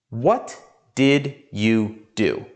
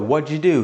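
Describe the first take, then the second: First: Each word is said fully and separately. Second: The words are run together quickly. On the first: "You probably know all of the words" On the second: "we talk fast and we combine words together into a mix of sounds"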